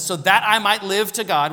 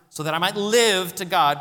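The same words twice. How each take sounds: First: Said in the usual way. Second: "live" punched and lifted above the rest; stress on live. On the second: Shown as a demonstration. Preacher rereads the verse, pressing "live". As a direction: lean hard on the word "live". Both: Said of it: "Put your emphasis on that word".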